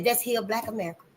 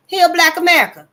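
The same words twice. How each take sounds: First: Said in the usual way. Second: Loud, high, forceful declaration; rallying cry. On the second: Real, not acted.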